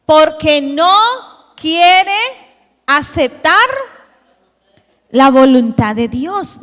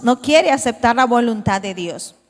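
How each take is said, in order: First: Each word drawn out slowly and louder, leaning on "quiere"; slow emphatic stress. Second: Said in the usual way. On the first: Shown as a demonstration. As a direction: spell it out slowly, pressing "quiere" and "aceptar". (lento y enfático, marcando "quiere") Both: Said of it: "repeats the phrase for emphasis".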